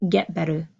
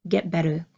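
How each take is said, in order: Both takes have the same delivery.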